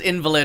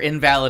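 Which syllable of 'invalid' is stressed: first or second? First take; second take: first; second. First: The stress is on the first syllable. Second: The stress is on the second syllable. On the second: Not valid.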